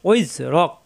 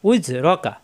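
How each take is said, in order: First: The word ends on a bare 'k' consonant. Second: The word ends with an open 'a' vowel. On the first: The reader stops at this point. "থামলে লাস্টের করে সাকিন হয়ে যাবে" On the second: The reading continues without stopping. "কাবজাবর কা"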